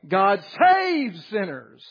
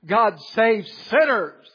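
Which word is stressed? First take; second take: saves; sinners. First: The word saves is stressed. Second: The word sinners is stressed.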